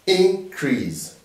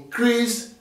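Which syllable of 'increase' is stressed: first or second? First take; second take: first; second. First: The stress is on the first syllable. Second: The stress is on the second syllable. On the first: It is used as a noun. "we'll put the stress in the first syllable when two syllabic words are used as nouns" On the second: It is used as a verb. "we'll put the stress in the second syllable throughout. Whenever two uh, syllabic words are used as verb"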